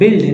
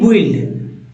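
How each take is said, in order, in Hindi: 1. b के बाद 'u' की कोई आवाज़ सुनाई नहीं देती। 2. b के बाद 'u' की आवाज़ सुनाई देती है। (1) "बिल्ड ना कि" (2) "ना कि बुइल्ड"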